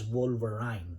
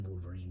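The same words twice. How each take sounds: First: Wolverine said with the last syllable rhyming with "wine"; childhood mispronunciation. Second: Said in the usual way. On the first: Shown as a demonstration. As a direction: say Wolverine the mistaken way, ending in "-ryne". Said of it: "whom we pronounced". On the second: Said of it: "the right pronunciation".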